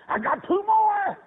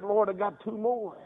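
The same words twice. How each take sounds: First: High, loud, drawn-out preacher's cry; exultant cry. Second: Said in the usual way. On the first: Retold or imitated. Father telling the Lord of two more sons, exultant. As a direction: belt it out slowly, pitched way up. Exultant repeat of his prayer.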